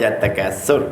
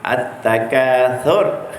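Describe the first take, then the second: First: The consonant is a plain s sound. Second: The consonant is a th sound, tongue tip out. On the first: The speaker calls it wrong. "Kadang-kadang saya dengar baca at-takatsur ada juga ya, tapi yang betulnya sa lah" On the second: The speaker calls it right. "Sa. Tempat keluarnya di ujung lidah"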